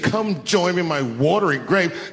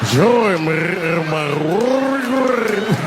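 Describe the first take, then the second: First: It is said in a plain voice. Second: It is said with a rolling, gargled throat.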